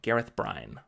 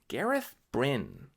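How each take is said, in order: First: The last name's vowel matches the one in 'briny'. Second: The last name's vowel is unlike the one in 'briny'. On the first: The speaker calls it wrong. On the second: The speaker calls it right.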